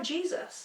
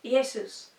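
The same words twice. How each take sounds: First: Jesus said JEE-zus; everyday English "Jesus", JEE-zus; modern English pronunciation. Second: Jesus said ee-AY-soos; "Jesus" opening on a vowel, no J; old pronunciation. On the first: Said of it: "They didn't have Jesus". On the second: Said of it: "They had". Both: Shown as a demonstration.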